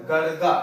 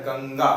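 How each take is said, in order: First: Put-on "गड़गा" read with a hard ड़ in the middle, as the old spelling misleads; the mistaken reading "गड़गा", with a flap in the middle; wrong reading. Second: "गंगा" with a nasal ng before the ग; the proper reading "गंगा", nasal ng then ga; correct reading. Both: Shown as a demonstration. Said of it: "ये गड़गा नहीं".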